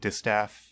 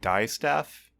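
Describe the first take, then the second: First: The first syllable is said as 'dis'. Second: The first syllable is said as 'die'. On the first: "it sounds wrong when I say it" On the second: "I guess it could be like die staff"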